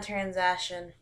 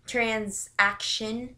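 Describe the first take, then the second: First: Said in the usual way. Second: "transaction" said very slowly, rising at the end; drawn-out word. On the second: Shown as a demonstration. Vlogger repeating a word to check it, "transaction" slow and rising. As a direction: stretch out "transaction" with a questioning rise.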